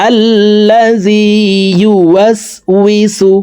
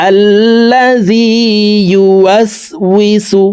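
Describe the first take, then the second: Both takes have the same delivery.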